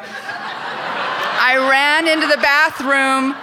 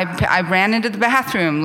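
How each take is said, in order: First: Slow, higher, laughing through it; amused slow-motion retelling. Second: Said in the usual way. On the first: Real, not acted. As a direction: drag it out while cracking up. Repeats line, laughing, drawn out.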